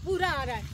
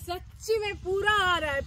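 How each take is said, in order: First: Distant echo coming back; faint echo off the hills. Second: Loud call. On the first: Real, not acted. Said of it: "পুরো ব্যাপারটা ইকো হচ্ছে". (প্রতিধ্বনি) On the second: Shown as a demonstration. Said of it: "জোরে চিৎকার করা হয় বা city মারা হয়, পুরো ব্যাপারটা ইকো হচ্ছে". (জোরে ডাকা)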